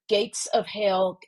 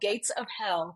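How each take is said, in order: First: The last word has a long 'ay' vowel. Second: The last word has a short 'eh' vowel. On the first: The speaker calls it wrong. "I say that word as though it's spelled H A I L" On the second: The speaker calls it right. "but it is H E L L"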